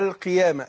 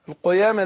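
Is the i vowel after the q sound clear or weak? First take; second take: clear; weak. First: The q sound has a clear i vowel. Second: The q sound has a weak i vowel. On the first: The speaker calls it right. "ناخذ بالنا من القاف المكسورة" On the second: The speaker calls it wrong. "ما قلتش القيامة"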